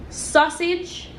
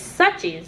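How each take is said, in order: First: The word is said in its standard form, sausage. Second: The word is said in a reduced form, suches.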